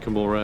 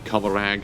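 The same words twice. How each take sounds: First: It is said like Gomorrah. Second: It is said unlike Gomorrah. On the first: This is the pronunciation thought to be intended. "I say Commorragh because I think it's supposed to be more like uh, Sodom and Gomorrah" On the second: This is how many other people say it. "I know a lot of people say Commorragh"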